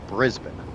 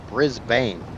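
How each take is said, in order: First: Brisbane is pronounced the Australian way. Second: Brisbane is pronounced the American way. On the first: This is how locals in Australia say it. "down there, down under, you guys call it Brisbane" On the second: This is how people in the States say it. "here in the States, we call it Brisbane"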